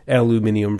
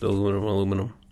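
First: It is said the non-American way. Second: It is said the American way.

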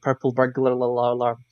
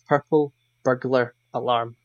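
First: Said quickly, burglar and alarm blur together. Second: Said carefully, burglar and alarm stay distinct. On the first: The speaker calls it wrong. "if I say it quickly, it comes out like" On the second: The speaker calls it right. "If I think about it, it's"

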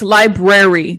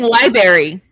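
First: The second R sound is pronounced. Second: The second R sound is dropped. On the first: The speaker calls it right. "It's library. There's two R's" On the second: The speaker calls it wrong. "That's like saying library"

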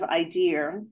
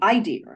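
First: The stress falls on the usual syllable. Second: The stress falls on a different syllable. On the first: This is the everyday way of saying it. "instead of idea" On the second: This is how an older family dialect said it. "Emphasis was on the idea"

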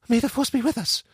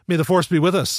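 First: It is said softly, in a subdued tone. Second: It is said heatedly, with a sneering edge. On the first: The speaker sincerely hopes for luck. "like they tone her character way down" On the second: The speaker is scornful of the sentiment. "she said it like it was almost a pejorative. Like, it was just a lot of heat in the way she said it"

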